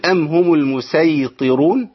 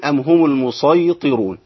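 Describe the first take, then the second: First: المسيطرون chanted slowly with a light, thin "s"; recited with sin. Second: المسيطرون chanted slowly with a heavy, emphatic "ṣ"; recited with sad. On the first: Teacher showing the first reading, المسيطرون chanted with a plain "s". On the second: Teacher showing the second reading, المسيطرون chanted with emphatic "ṣ". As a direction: recite المسيطرون with sad, darkening the vowel after it. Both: Shown as a demonstration. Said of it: "ليه السين والصاد؟".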